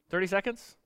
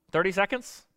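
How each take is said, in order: Both takes have the same delivery.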